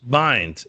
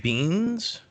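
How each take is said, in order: First: The vowel sounds like eye in binds. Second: The vowel sounds like ee in beans. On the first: The speaker calls it right. "It's Zach Bynes" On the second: The speaker calls it wrong. "Zach Beans or Bynes"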